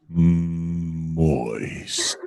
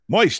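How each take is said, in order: First: The word is drawn out very slowly. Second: The word is said quickly, in rapid repetition. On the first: "saying the word moist really slow" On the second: "If you say it really fast"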